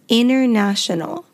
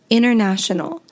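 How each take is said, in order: First: The T after the N is dropped. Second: The same.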